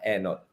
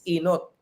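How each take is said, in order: First: The word begins with an e vowel. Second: The word begins with an i vowel. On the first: This is how the clergy say it. "nagpe-preach yung mga pare, yung ang first is enot" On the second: This is how ordinary people say it. "sa common people, it's inot"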